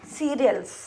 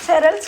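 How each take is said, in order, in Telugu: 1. ఈ పదాన్ని పొడవుగా, see-ri-als అని చెబుతారు. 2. ఈ పదాన్ని చిన్నగా, ser-als అని చెబుతారు. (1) "సీరియల్స్ అంట దాని ప్రొనౌన్సియేషన్" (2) "అలవాటు అయిపోయి సెరల్స్ సెరల్స్ అంటున్నాం"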